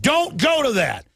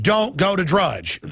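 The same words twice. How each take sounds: First: Higher, slow mock command; mock godlike order. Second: Slow, stern mock order; mock official warning. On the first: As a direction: order it like a haughty god. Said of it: "they think they're God". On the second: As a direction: slowly lay down the mock ban. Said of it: "chief advisor to Obama said".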